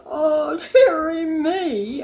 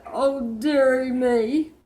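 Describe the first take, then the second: First: High, louder, slow hammed-up sob of "dearie me"; king sobbing. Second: Said in the usual way. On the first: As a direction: wail it like a sulky king in tears. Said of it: "The king sobbed". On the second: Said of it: "and then he said".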